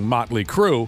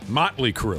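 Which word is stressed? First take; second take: Crue; Motley. First: The stress falls on the word Crue. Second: The stress falls on the word Motley. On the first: "Instead of just saying" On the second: "put that emphasis on the Motley"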